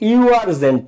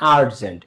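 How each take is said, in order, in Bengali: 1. শব্দটি 'yoo' শব্দ দিয়ে শুরু হয়। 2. শব্দটি 'uh' শব্দ দিয়ে শুরু হয়। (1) "ইউ আর্জেন্ট না" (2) "তোমার ইউ আ হয়ে যাচ্ছে"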